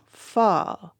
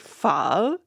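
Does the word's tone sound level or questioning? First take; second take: level; questioning. First: The word is said with a level tone. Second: The word is said with a questioning tone. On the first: "that pho becomes pho" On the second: "that's where it becomes the interrogative ... you're always asking a question"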